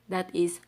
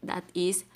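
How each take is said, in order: The two takes are said the same way.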